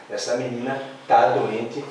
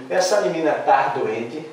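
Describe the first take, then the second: First: Said in the usual way. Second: "tá" said as "tar", in a doubting question; wrong infinitive form. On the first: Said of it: "pegou bem". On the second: Shown as a demonstration. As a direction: test "tá" with an R ending, rising at the end. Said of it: "Não".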